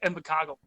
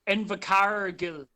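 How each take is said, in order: First: Said in a standard New Zealand accent, R dropped. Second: Said in a Southland accent with a pronounced R.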